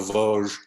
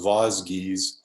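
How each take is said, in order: First: The name is said with a French-style pronunciation. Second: The name is said with an English-style pronunciation. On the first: The speaker calls it right. "not the Vosges" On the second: The speaker calls it wrong. "I didn't pronounce them correctly. I, I thought they were known as the Vosges"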